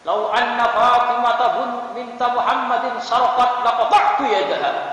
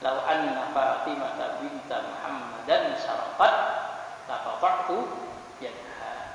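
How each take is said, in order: First: It is said fervently and forcefully. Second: It is said calmly and without force.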